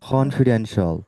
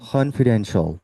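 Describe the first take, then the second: No difference in how they are said.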